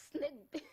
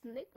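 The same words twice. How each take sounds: First: Snake said higher and louder as the answer; an emphatic, higher, louder Snake; punchline answer. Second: Snake? asked with a light rising tune; a playful quiz-show rising Snake?; teasing question. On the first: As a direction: land Snake as the comic punchline. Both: Shown as a demonstration. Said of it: "give her what?".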